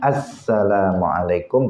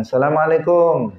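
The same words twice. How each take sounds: First: Slow, full "Assalamualaikum" with every syllable; calm, proper "Assalamualaikum"; correct greeting. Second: High, clipped "Salamalekum" with the first syllable dropped; a quick, careless "Assalamualaikum" pitched up; casual called-out "Assalamualaikum"; sloppy greeting. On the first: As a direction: draw out "Assalamualaikum" carefully. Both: Shown as a demonstration.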